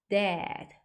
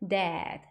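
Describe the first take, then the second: The two takes are said the same way.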